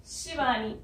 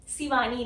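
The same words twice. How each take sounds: First: शिवानी with a clear sh, shi-vaa-nee; correct sh sound. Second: शिवानी said as si-vaa-nee with a plain s; wrong s sound. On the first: Teacher models the right sh sound in शिवानी for students. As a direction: say शिवानी with the sh of "shoe". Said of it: "इसलिए सब मुझे शिवानी बुलाते हैं". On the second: Teacher demonstrates the wrong s sound in शिवानी to students. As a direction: mispronounce शिवानी with s instead of sh. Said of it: "शिवानी नहीं". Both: Shown as a demonstration.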